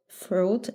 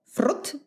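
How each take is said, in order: First: Said in the usual way. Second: "fruit" with a trilled r and short vowel; rolled R. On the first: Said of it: "any other way than". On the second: Shown as a demonstration. Household joke word, "fruit" with a playfully rolled r. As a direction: roll the r hard in "fruit". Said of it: "We always roll our R's".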